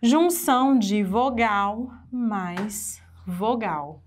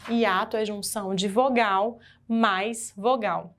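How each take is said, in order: First: Junção de vogal mais vogal, each word weighed; slow, deliberate definition. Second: Said in the usual way. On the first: Shown as a demonstration. Teacher dictating the definition slowly. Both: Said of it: "que que é hiato?".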